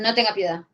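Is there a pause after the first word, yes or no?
no. It is said without a pause after no.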